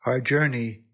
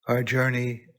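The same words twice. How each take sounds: The two takes are said the same way.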